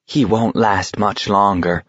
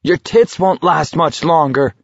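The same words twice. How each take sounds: First: Matter-of-fact onlooker's comment; audible remark. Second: High-pitched angry retort; sharp comeback, pitched up; snapping. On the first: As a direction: say it plainly, for others to overhear. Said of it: "said quite audibly". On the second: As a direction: snap back at a heckler. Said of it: "Garrity snapped at her". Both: A narrator's reading.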